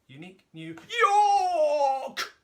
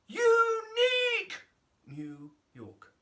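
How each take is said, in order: First: The word York is exaggerated. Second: The word unique is exaggerated.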